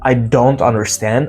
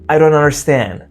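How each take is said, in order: First: The T in don't is pronounced. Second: The T in don't is dropped. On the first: "It's not" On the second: "drop T"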